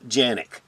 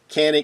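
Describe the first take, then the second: First: The name begins with a soft J sound. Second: The name begins with a hard K sound. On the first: This is how it is said in Turkey. "in Turkey, Canik is pronounced Janik" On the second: This is the usual American way to say it. "we're going to go with the U S pronunciation"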